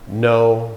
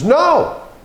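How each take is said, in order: First: The word is said flatly, without emotion. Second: The word is said with strong emotion.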